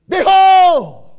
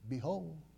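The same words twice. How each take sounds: First: The word is said with loud intensity. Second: The word is said calmly, without force. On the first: Everybody is meant to notice and hear. The speaker calls it right. "He had some intensity when he said" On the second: The announcement sounds routine and unimportant. The speaker calls it wrong. "Think he said it that way? I don't"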